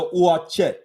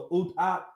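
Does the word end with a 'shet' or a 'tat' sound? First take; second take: shet; tat. First: The word ends with a 'shet' sound. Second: The word ends with a 'tat' sound. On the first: The speaker calls it wrong. "It's not the Uachet" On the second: The speaker calls it right. "is actually pronounced the Utat"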